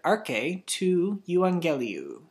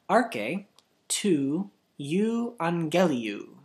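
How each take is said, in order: First: The phrase is said at normal speed. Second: The phrase is said slowly.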